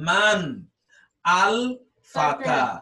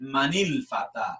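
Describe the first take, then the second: First: The words are said separately, with no i-sound. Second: The words are linked by an i-sound, dropping alif. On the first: "মূলত ছিল মান আল ফাতা" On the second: "এজন্য কি হয়ে যাবে এটা মানিল ফাতা"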